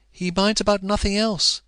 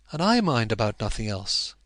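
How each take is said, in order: First: "minds" stressed high and loud; higher, louder pleading on "He minds about nothing else"; passionate cry. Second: Said in the usual way. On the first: A narrator's reading. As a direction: lean hard on "minds". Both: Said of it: "her passionate cry".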